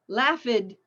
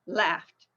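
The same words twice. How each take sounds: First: The ending is said as an extra syllable. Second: The ending is a plain t sound. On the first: The speaker calls it wrong. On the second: The speaker calls it right.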